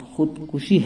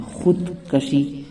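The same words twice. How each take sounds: First: خودکشی said "khud-kushi", u after k; correct pronunciation. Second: خودکشی said "khud-kashi", a after k; wrong pronunciation. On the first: Teacher giving the correct word, خودکشی as "khud-kushi". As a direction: say خودکشی with "ku" in the middle. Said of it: "اس کا صحیح تلفظ". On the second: Teacher showing people's mistake, خودکشی as "khud-kashi". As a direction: say خودکشی slowly with "ka" in the middle. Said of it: "غلط تلفظ مشہور ہے". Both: Shown as a demonstration.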